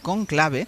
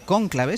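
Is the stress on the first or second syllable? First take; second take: second; first. First: The stress is on the second syllable. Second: The stress is on the first syllable. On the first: The speaker calls it right. "deberíamos decir conclave" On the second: The speaker calls it wrong. "los españoles tenemos la manía de poner esdrújulas"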